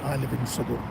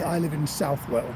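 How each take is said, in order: First: The name ends in a reduced 'all' sound. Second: The name ends in a full 'well' sound. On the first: It is the usual local form. "everybody else in Nottinghamshire pronounces it Southall" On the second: It sounds more upmarket. "it sounds a little bit more upmarket to say"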